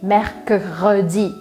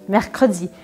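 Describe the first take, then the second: First: It is said slowly with the syllables separated. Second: It is said faster with the syllables joined. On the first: "faz uma separaçãozinha aqui também, só para treinar" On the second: "aos poucos você vai acelerando"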